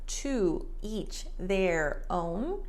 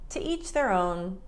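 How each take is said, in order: First: Each word is said fully and separately. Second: The word 'to' is shortened and weak. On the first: The speaker calls it wrong. "word for word, to each their own, very robotic" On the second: The speaker calls it right. "Americans tend to reduce the to"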